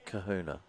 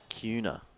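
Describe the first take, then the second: First: The name is said with three syllables. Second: The name is said with two syllables. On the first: The speaker calls it wrong. "not Kahuna" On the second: The speaker calls it right. "apparently it's also, it's uh, Cuna"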